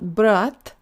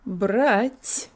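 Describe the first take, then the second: First: The final t is hard, without air. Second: The final t is soft, with air. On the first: The speaker calls it wrong. "it's not brat" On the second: The speaker calls it right. "lots of air"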